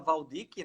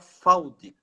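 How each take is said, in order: First: The name begins with a V sound. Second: The name begins with an F sound. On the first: This is how most people say it. "a maioria fala Valdic" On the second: This follows the German origin of the name. "O V no alemão tem som de F. Então se fala Faldic"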